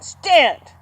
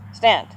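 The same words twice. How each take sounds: First: The command is said with forceful energy. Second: The command is said politely and gently.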